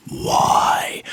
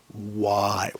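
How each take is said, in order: First: Breathy whispered cry of why; mock whisper-shout. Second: Low, soft, wailing why; mock anguished cry. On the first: Ranting vlogger repeats the question as a dramatic whisper-shout. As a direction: hiss it out like a stage whisper. Mock despair over guitar tone. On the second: Ranting vlogger fakes despair with a soft, low wail. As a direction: moan it like a comic lament.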